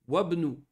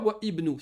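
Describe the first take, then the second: First: The vowel is dropped and the words link. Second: The vowel is pronounced without linking. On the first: The speaker calls it right. "On fait une liaison. On fait Wabnou" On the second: The speaker calls it wrong. "On ne dit pas Wa Ibnou. Ça, c'est une faute"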